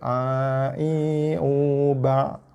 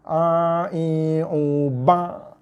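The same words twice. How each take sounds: First: The ain is said softly without pressure. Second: The ain is pressed hard at its articulation point. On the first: The speaker calls it right. "jangan ditekan. Lembutkan aja" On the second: The speaker calls it wrong. "ada orang baca dia tekan huruf ain"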